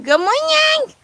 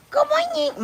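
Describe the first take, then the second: First: Soar up high on morning; high sing-song good morning; high singsong greeting. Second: Said in the usual way. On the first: Acted. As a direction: trill it way up like a cheery bird. Sung greeting.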